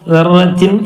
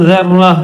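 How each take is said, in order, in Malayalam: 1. ഈ വാക്ക് പൂർണ്ണമായ "-tin" ശബ്ദത്തിലാണ് അവസാനിക്കുന്നത്. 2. ഈ വാക്ക് മൃദുവായ "h" ശബ്ദത്തിലാണ് അവസാനിക്കുന്നത്. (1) "ദർറത്തിൻ എന്നാണുള്ളത്" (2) "നിർത്തിയപ്പോൾ ദർറ ത മാറിയിട്ട് ഹാ ആയിട്ട് മാറും"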